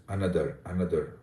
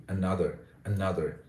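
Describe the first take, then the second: First: Another with every syllable weighted alike, Indian style; equal emphasis. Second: Another with its second syllable stressed. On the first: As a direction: say another evenly, no syllable standing out. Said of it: "with equal emphasis on all the syllables". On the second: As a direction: lean rhythmically on the middle of another. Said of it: "you use syllable stress effectively". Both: Shown as a demonstration.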